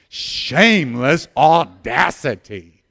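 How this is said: It is said in a bold, brazen way. "Now say it with some shameless audacity"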